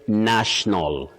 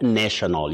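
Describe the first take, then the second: First: The first vowel is short, like 'nash'. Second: The first vowel is long, like 'nation'. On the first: The speaker calls it right. "when you come to the adjective, you say national" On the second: The speaker calls it wrong. "not national"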